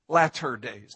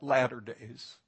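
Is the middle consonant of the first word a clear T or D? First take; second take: T; D. First: The middle consonant is a clear T sound. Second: The middle consonant sounds like a D sound. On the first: The speaker calls it right. "TT, not DD" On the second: The speaker calls it wrong.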